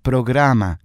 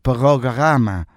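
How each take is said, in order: First: The r is a Spanish tapped r. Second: The r is a throaty French r.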